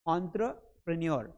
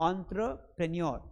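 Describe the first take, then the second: Both takes have the same delivery.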